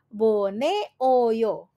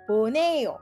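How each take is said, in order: First: It is said slowly, with every syllable separate. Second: It is said quickly, with the vowels run together.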